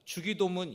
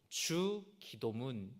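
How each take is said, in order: First: It is said as one unbroken word. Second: There is a break after the first syllable. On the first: It sounds like a magic incantation. The speaker calls it wrong. "이게 아니라" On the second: It means the prayer the Lord taught. The speaker calls it right. "이게 맞는 것입니다"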